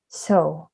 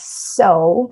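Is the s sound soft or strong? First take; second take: soft; strong. First: The s sound is soft and gentle. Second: The s sound is strong and crisp. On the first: "a little bit uh, soft than English so" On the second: "in English, you pronounce so"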